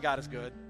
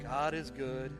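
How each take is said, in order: First: It is said in a happy, bright way. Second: It is said in a sad, flat way.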